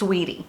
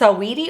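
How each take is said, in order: First: The name is said with two syllables. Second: The name is said with three syllables. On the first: "or if it's just Sweetie" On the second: "I don't know if it's [name]"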